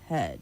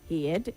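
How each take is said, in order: First: The vowel does not sound like hear. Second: The vowel sounds like the one in hear. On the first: The speaker calls it right. "it is heard" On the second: The speaker calls it wrong. "you don't say hear the way you would say it when it's not in past tense"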